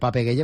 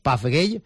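First: The first name is pronounced Pape. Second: The first name is pronounced Paf. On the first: This is how people usually say the name. The speaker calls it wrong. "Le llamamos muchas veces Pape Gueye" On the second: This is how the name should be said. The speaker calls it right. "pero se debería llamar Paf Gueye"

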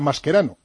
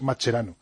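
First: The name has an Italian pronunciation. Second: The name has an Argentine Spanish pronunciation. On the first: This is how it would be said in the surname's origin country. "Si él hubiese nacido en Italia sería Mascherano" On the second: This is how it is said where he was born. "en argentino es Mascherano"

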